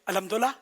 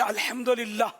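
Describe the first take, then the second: First: The phrase is said fast and slurred. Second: The phrase is said slowly and clearly. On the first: "जब स्पीड पकड़ते हैं ना, fast bowling" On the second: "अभी जैसे मैंने बोला ना"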